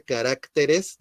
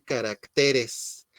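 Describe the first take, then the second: First: Said in the usual way. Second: "caracteres" stressed on TE, drawn out; shifted word stress. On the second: Shown as a demonstration. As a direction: say "caracteres" slowly as ca-rac-TE-res. («caracteres» lento, con acento en TE) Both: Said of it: "acentuar estas palabras en la última sílaba".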